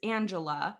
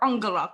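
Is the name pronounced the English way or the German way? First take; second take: English; German. First: The name has an English pronunciation. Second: The name has a German pronunciation. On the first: "in English, her name is Angela" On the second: "in German, I call her Angela because that's how you say it in German"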